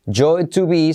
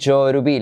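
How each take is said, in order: First: The t in 'to' is a clear t. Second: The t in 'to' is a soft r-like tap.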